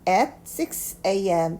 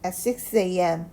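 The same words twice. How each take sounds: First: Each word is said separately. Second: The words run together as one chunk. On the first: "이라는 단어지만" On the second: "하나를 연결해서 읽어주셔야 돼요"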